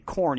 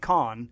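First: Said in a plain, non-Boston accent. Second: Said in a thick Boston accent. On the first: "when he'd say corn" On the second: "he'd say con"

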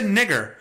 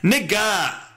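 First: The word ends with a clearly pronounced R sound. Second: The word ends in a vowel with no R sound. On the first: The speaker calls it wrong. "I just said it with a hard R" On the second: The speaker calls it right. "I shouldn't say it with a hard R"

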